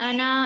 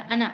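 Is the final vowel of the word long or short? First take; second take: long; short. First: The final vowel is drawn out long. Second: The final vowel is said short and quick. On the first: The speaker calls it wrong. "इस तरह हम खींच कर पढ़ेंगे" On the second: The speaker calls it right. "जल्दी पढ़ेंगे"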